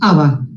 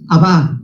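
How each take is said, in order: First: The word is said in an Americanized way. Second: The word is said in the Hebrew way. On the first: The speaker calls it wrong. "no es Abba" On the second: The speaker calls it right. "la fonética correcta es Abba"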